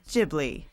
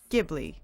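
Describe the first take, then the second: First: The name begins with a soft sound. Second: The name begins with a hard G sound. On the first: This is how the spelling is read in Japanese. The speaker calls it wrong. "in Japanese, it's quite clear. The only way to pronounce the spelling is Ghibli" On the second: This is how the word is said in the original Italian. The speaker calls it right. "G H I is pronounced gi in Italian... the original Italian is really pronounced Ghibli"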